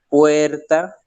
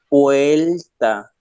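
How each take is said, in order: First: The consonant before the t is a trilled r. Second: The consonant before the t is an l. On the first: "en vez de decir puerta" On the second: "dicen puerta"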